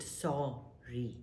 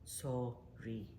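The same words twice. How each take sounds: First: A quiet sorry; soft sorry. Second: Sorry, dropped much quieter; Sorry said very quietly as a demonstration; softer sorry. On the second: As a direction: let Sorry fall away almost unheard. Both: Shown as a demonstration. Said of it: "Practice it".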